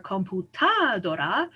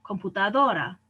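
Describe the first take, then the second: First: "computadora" slowly, misstressed as com-pu-TA-do-ra; wrong-syllable stress. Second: "computadora" as com-pu-ta-DO-ra; penultimate stress. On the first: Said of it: "I don't say vela". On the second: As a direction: lean on DO in "computadora". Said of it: "emphasize the second to last syllable". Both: Shown as a demonstration.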